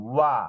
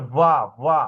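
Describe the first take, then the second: First: "ওয়া" with a rounded-lip w; correct w sound. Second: "ওয়া" begun like a b; mistaken b-like sound. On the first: Teacher modelling the letter waw, rounded w in "ওয়া". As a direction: glide from round lips into "ওয়া". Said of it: "অনেকে ওয়া". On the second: Teacher showing how many mispronounce waw, b-like "ওয়া". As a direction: close the lips so "ওয়া" sounds like baa. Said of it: "অনেকে বার মতো উচ্চারণ করে". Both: Shown as a demonstration.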